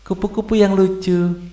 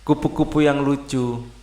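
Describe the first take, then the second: First: It is read in a cheerful, happy mood. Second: It is read slowly in a calm mood. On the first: "suasana harus gembira ya" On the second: "bacanya memang harus pelan"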